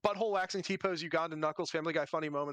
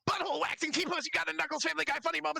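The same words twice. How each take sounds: First: It is said in his normal voice. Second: It is said in a put-on goblin voice.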